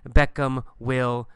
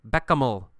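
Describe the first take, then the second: First: The word will is said in full. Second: Will is reduced to a short ul sound. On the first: "in a textbook, you will see Beckham will go to Los Angeles" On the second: "But we say Beckham'll"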